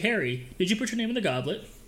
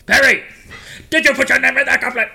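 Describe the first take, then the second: First: It is asked calmly and gently. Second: It is asked angrily and forcefully.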